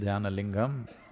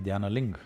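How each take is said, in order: First: The final syllable is fully sounded. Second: The final syllable is cut off. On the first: "If you say Dhyanalingam" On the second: "they'll say Dhyanaling. the last syllable, they'll cut it off"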